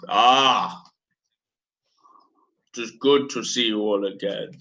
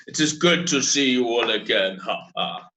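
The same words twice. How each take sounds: First: A lightly voiced Hutt accent, unhurried and grand; bad Hutt accent. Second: A second try at a lightly voiced Hutt accent, ending in a chuckle; bad Hutt accent. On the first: Crime lord Boga greets the crew, lightly voiced bad Hutt accent. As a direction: greet them as a Hutt crime lord would, only a hint of it. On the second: Crime lord Boga repeats his greeting, mild bad Hutt accent. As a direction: greet them as a Hutt crime lord, a touch more relaxed. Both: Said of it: "This is my bad Hutt accent".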